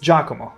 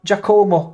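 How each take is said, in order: First: The name is said with an Italian pronunciation. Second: The name is said in an anglicized, non-Italian way. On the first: The speaker calls it right. "It's Giacomo" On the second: The speaker calls it wrong. "pronunciation hurts my soul"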